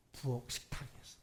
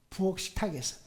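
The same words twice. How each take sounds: First: Hushed, breathy whisper of 부엌 식탁에서. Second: Said in the usual way. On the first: Shown as a demonstration. Pastor to congregation, whispering 부엌 식탁에서. Repeated detail, first whispered.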